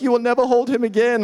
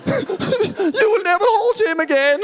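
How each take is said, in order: First: Higher-pitched freak-out as a distraught wife; mock weeping. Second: Very high, drawn-out comic wail; mock uncontrollable weeping. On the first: New mother breaking down at husband, mock weeping. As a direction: imitate a tearful wife, pitched up. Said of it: "She's weeping and is like". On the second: Wife sobbing at husband who threw co-sleeper, mock uncontrollable weeping. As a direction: wail it slowly, hammed-up and way up high. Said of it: "is uncontrollably weeping".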